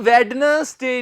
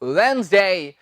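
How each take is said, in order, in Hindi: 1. 'n' से पहले 'd' की आवाज़ बोली जाती है। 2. 'n' से पहले कोई 'd' की आवाज़ नहीं बोली जाती। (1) "ਬਹੁਤ ਸਾਰੇ ਲੋਕ ਇਹਨੂੰ ਕਹਿ ਦਿੰਦੇ ਹਨ ਵੈਡਨਸਡੇ ਉਹ ਜੀ ਵੈਡਨਸਡੇ ਨਹੀਂ ਹੁੰਦਾ" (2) "ਇਹ ਹੁੰਦਾ ਹੈ ਵੈਨਸਡੇ ਕੀ ਕਿਹਾ ਮੈਂ"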